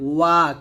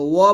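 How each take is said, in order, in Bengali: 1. 'wa' ধ্বনিটি স্পষ্ট ও পরিষ্কারভাবে বলা হয়েছে। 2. 'wa' ধ্বনিটি ঢিলেঢালাভাবে ও অস্পষ্টভাবে বলা হয়েছে। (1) "বলতে হবে ওয়া, ক্লিয়ার করে বলতে হবে" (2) "ওয়া বলা যাবে না"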